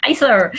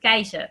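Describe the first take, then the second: First: Kaiser with an English r at the end; English pronunciation. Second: Kaiser said the Dutch way, no r at the end; Dutch pronunciation. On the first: Retold or imitated. Amused Dutch co-host echoing the host, English-style Kaiser. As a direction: echo "Kaiser" the English way, high and loud. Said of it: "it's the English pronunciation". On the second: Shown as a demonstration. Co-host showing the host her surname, Dutch pronunciation of Kaiser. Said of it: "it's pronounced in Dutch".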